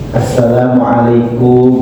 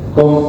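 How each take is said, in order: First: The whole greeting is pronounced fully. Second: Only a short final syllable is pronounced. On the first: The speaker calls it right. "cara mengucapkan salamnya yang baik" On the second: The speaker calls it wrong. "jangan terlalu singkat lagi"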